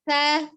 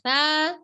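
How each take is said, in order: First: The syllable is short and level. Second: The syllable is drawn out with a swing. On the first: The speaker calls it right. "tapi sa" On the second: The speaker calls it wrong. "jangan diayun. Tidak sa"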